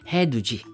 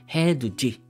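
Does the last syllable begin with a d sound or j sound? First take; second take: j sound; j sound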